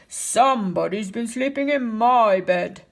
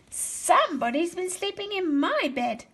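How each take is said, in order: First: It is growled in a big, deep voice. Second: It is said in a small, little voice. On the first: A large father bear is speaking. "he growled in his great big voice" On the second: A small baby bear is speaking. "Baby Bear said in his little voice"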